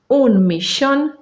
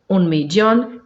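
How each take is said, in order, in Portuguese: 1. O ll soa como sh. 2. O ll soa como uma consoante y. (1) "Pode ser como X, que é a pronúncia rioplatense" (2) "Pode ser também como Y"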